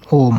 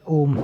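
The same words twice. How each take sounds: First: ओम with the ओ stretched to three times its length; ओम said slowly, its ओ held for a long time; drawn-out pluta vowel. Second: Said in the usual way. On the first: Shown as a demonstration. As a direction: hold the ओ of ओम long and slow, like a chant. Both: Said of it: "ओ को तीन बार बोलना है".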